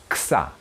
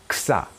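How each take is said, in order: The two takes are said the same way.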